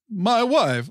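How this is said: It is said in a Borat impression voice.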